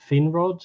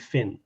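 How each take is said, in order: First: The first vowel sounds like a long 'ee'. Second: The first vowel sounds like a short 'i'. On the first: The speaker calls it wrong. "Finrod is what she says" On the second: The speaker calls it right. "but it should be Finrod"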